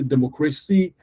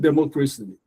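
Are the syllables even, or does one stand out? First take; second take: one stands out; even. First: One syllable is clearly louder than the others. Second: All syllables are said with equal weight. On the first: The speaker calls it right. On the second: The speaker calls it wrong.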